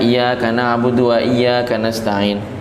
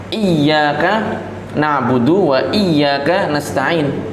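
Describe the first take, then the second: First: The doubled consonants are cut short. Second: The doubled consonants are held long. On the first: The speaker calls it wrong. "ini enggak ada tasydidnya ini. Tidak sah kalau dibaca seperti itu" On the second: The speaker calls it right.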